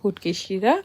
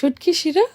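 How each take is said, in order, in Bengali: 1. নামটি সিলেটি আঞ্চলিক উচ্চারণে বলা হয়েছে। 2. নামটি প্রমিত বাংলা উচ্চারণে বলা হয়েছে। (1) "বাট তারা বলে হচ্ছে গিয়ে" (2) "এটা হচ্ছে"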